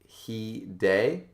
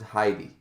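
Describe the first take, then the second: First: The name sounds like 'he day'. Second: The name sounds like 'high dee'. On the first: "Indigo said I pronounced it he day" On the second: "I pronounced it Heidi"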